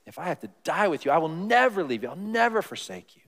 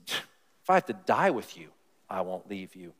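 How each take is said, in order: First: Fast, emphatic boast; bold promise. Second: Said in the usual way. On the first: Retold or imitated. Peter boasting to Jesus he'll never leave, fast emphatic vow. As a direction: swear it like a big vow. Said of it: "Big words". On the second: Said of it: "he says".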